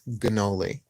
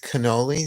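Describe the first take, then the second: First: The word begins with a G sound. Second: The word begins with a K sound.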